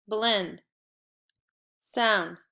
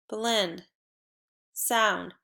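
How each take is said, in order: Both takes have the same delivery.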